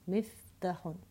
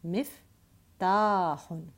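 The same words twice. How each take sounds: First: The vowel after the t is short. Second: The vowel after the t is long. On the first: The speaker calls it wrong. "I should not be saying miftahun. Miftahun would just be a ta with a fatha" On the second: The speaker calls it right. "I have to pronounce the fatha longer, two times"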